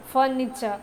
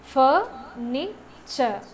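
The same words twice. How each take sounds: First: Said in the usual way. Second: "ഫർണിച്ചർ" drawn out syllable by syllable; slow syllable demo. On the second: Shown as a demonstration. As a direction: stretch "ഫർണിച്ചർ" into three clear beats. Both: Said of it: "ട്രൈസിലബിക് വേർഡ്സിൽ".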